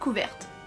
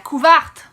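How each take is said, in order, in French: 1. La voyelle du milieu est un simple 'eh'. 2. La voyelle du milieu est ouverte en un son 'ah'. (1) "nous autres on dit une couverte" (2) "Avec l'accent québécois, par contre, ça donne la couverte. Le E devient souvent un A"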